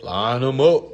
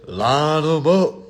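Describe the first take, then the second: First: Louder hype call; rallying call. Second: Slow, louder stretched rally cry; slow triumphant rally; drawn-out hype. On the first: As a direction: fire up the crowd. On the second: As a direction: savour each word. Repeated slower after laugh. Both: Real, not acted.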